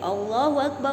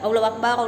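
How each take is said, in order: First: The syllables are slowly drawn out and lengthened. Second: The syllables are said short, without lengthening. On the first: The speaker calls it right. "dipanjangkan seperti itu maksudnya ya" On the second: The speaker calls it wrong. "Jadi tidak Allahu Akbar, Allahu Akbar, enggak seperti itu"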